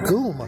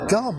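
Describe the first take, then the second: First: The vowel is a long 'oo' sound. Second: The vowel is a short 'uh' sound. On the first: This is the name as locals say it. The speaker calls it right. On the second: This is how an English reader would guess it. The speaker calls it wrong. "to the native English speaker, it looks like it's named Gum"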